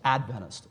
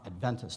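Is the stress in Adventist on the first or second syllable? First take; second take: first; second. First: The stress is on the first syllable. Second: The stress is on the second syllable. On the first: The speaker calls it right. "emphasis on the first syllable" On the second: The speaker calls it wrong. "as many other Christians will often say"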